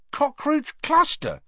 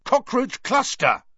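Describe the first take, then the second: First: Very high, slow disbelief; amazed. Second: Very high exclamation; angry yell. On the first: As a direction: question it in astonishment. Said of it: "he said, amazed". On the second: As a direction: yell a last exasperated guess. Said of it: "he yelled angrily". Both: A narrator's reading.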